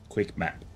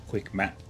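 Both takes have the same delivery.

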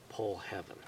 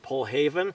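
First: The second word is said like 'heaven'. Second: The second word is said like 'haven'. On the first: This is how the name is written. "even though it plainly says Pull Heaven" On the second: This is how the locals say the name. "that's how all of us dumb rednecks in Utah pronounce that word"

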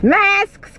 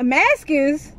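First: The word is said as a single syllable. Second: An extra vowel splits the word into two syllables. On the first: The speaker calls it right. "I'd rather y'all say it like that" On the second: The speaker calls it wrong. "Let somebody say maskers. I'm like, what?"

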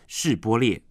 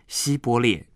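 First: The word begins with a 'shi' sound. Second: The word begins with a 'si' sound. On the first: The speaker is not from the fleeing tribe. "他们就让他念是波列" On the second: The speaker is from the fleeing tribe. "因为以法连人发音的腔调关系一定会说成西波列"

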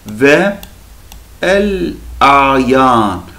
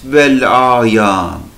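First: Ve and el are said as separate syllables. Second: Ve and el are merged into one syllable. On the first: The speaker calls it wrong. "Aslında biz bunu ve el ayan değil" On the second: The speaker calls it right. "Bunu bu şekilde okuyacağız arkadaşlar"

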